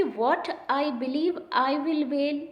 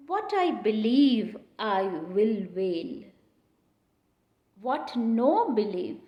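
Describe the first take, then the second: First: Said in the usual way. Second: Very slow, weighted reading of the quote; teacher reciting the verse slowly; slow recitation. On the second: Shown as a demonstration. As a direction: draw the line out word by word.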